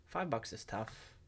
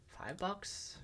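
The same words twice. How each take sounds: First: Resigned. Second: Doubtful question. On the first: Settling on a verdict. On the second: Doubting his own price target. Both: Real, not acted.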